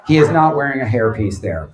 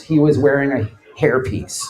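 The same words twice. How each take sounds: First: Is leaned on to say right now; he IS not wearing, is stressed against was. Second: Was leaned on to set it in the past; he WAS wearing, was stressed against is. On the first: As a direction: hit is, then a falling end. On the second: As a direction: hit was, as in back then. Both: Shown as a demonstration.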